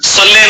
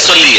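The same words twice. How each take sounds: First: صلی said "salle", ending in a loose e; wrong majhool vowel. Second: صلی said "salli", heavy s and a clear ee ending; correct clear vowel. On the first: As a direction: give صلی the lax everyday ending, "salle". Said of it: "صلی نہیں ہے". (مجہول آواز میں صلی) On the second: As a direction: give صلی a full Arabic ee at the end. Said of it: "صلی ہے". (معروف آواز میں صلی) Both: Shown as a demonstration.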